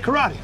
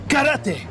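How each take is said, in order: First: The word is said with English pronunciation. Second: The word is said with Japanese pronunciation. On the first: "All right, fine. I'm going to say karate" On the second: "I say that the way the Japanese do"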